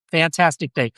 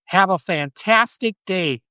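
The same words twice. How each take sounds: First: Said in the usual way. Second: Mock American accent, drawn out slowly and higher. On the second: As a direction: put on a cheery over-the-top American accent. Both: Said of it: "that's my American accent".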